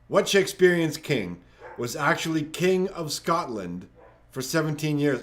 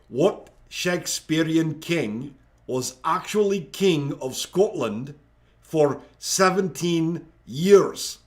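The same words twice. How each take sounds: First: It is read in a plain, unaccented voice. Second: It is read in a put-on Scottish accent.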